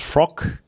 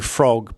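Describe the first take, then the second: First: The word ends with a clipped K sound. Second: The word ends with a voiced G sound. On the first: The speaker calls it wrong. "becomes number release K" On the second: The speaker calls it right. "the hard G sound in frog"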